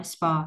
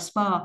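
First: "spur" unstressed, on a falling tone; lowered tone. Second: Said in the usual way. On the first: Shown as a demonstration. Teacher explaining stress, lowered tone on "spur". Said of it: "không có dấu nhấn gì cả nên xuống giọng". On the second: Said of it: "xuống giọng là spur".

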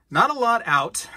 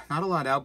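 First: Emphatic outburst. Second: Said in the usual way. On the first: Acted. Vlogger showing off gold, blurting it high and loud. Repeats the phrase, first take punched.

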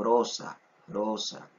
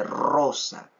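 First: "rosa" with one light tap of the r, no trill; soft tapped r. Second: "rosa" with a strong trilled rr; wrong rolled r. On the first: Teacher showing students the correct soft rosa. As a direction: tap the r in "rosa" softly, the right way. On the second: Teacher showing students the wrong rolled rosa. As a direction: roll the r in "rosa" hard, the wrong way. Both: Shown as a demonstration. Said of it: "Uno no dice rosa, sino rosa".

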